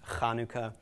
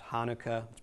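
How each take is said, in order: First: The word starts with a raspy sound in the throat. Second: The word starts with a plain, soft h sound. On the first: "It's actually pronounced Chanukah" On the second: "also known as Hanukkah"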